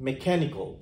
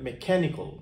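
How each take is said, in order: Both takes have the same delivery.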